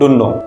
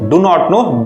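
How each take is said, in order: First: The words are run together into one short form. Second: Every word is said separately and in full. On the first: "इसको हम बोलते हैं डू नो"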